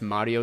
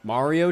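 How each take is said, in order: First: Mario is said with a strong Italian accent. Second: Mario is said with a plain English accent. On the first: The speaker calls it right. "Why'd you say Mario with a full Italian accent?" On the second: The speaker calls it wrong. "that doesn't hit"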